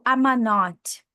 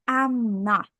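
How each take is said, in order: First: An extra vowel is inserted after I'm. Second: I'm runs straight into not, no extra vowel. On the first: The speaker calls it wrong. "tipo I'm a not. Isso está incorreto" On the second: The speaker calls it right. "O correto é I'm not"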